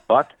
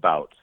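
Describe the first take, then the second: First: The name rhymes with the word but. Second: The name rhymes with the word out. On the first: This is how Russians in Russia say it. "it's butt, like as in a rear end" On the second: This is how it is said in the States now. "or now it's become bout"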